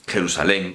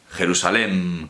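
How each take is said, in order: First: Jerusalén ending in a tongue-tip N; final N sound. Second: Jerusalén ending in a closed-lip M; final M sound. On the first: Teacher contrasting spellings, Jerusalén said with a final N. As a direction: finish Jerusalén on an N, lips open. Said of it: "con N sí lleva tilde". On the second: Teacher contrasting spellings, Jerusalén said with a final M. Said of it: "con M no lleva tilde". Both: Shown as a demonstration.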